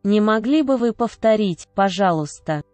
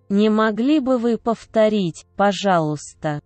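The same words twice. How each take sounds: The two takes are said the same way.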